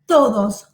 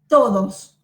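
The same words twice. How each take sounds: The two takes are said the same way.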